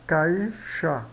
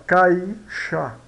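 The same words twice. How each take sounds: First: Said in the usual way. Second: Caixa drawn out slowly, each sound clear; slow demo word. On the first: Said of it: "Agora, caixa". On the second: Shown as a demonstration. Teacher slowing caixa to show the diphthong to students.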